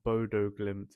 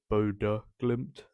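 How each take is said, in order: First: The last vowel of Bodo is not 'uh'. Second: The last vowel of Bodo is 'uh'. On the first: The speaker calls it wrong. "It's not Bodo Glimt" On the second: The speaker calls it right. "that O with the line through it is an uh sound"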